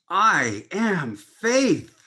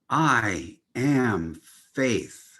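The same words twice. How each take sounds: First: It is said with the highest, zealous energy. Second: It is said calmly with plain energy.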